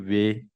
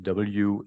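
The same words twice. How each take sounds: First: The letter is pronounced as in Dutch. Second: The letter is pronounced as in English. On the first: "mais on dit W" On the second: "en anglais, ou c'est W"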